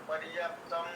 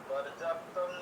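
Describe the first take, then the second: No difference in how they are said.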